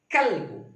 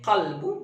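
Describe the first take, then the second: First: The first consonant is a plain 'k' sound. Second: The first consonant is made deep in the throat. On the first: This is the form borrowed into Indonesian. "berubah menjadi kalbu" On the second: This is the original Arabic form. "qalbun ya, qalbu"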